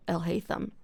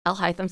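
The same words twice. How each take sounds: First: "El Haytham" said as el HAY-thum; "El Haytham" with an ay vowel in the middle; HAY-thum pronunciation. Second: "Al Haytham" said as al HIGH-thum; "Al Haytham" with an eye vowel in the middle; HIGH-thum pronunciation. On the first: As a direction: say "El Haytham" with "Hay" as in dried grass. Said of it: "That sounds better". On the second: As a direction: say "Al Haytham" with "Hay" rhyming with "high". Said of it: "sounds better than Al Haytham". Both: Shown as a demonstration.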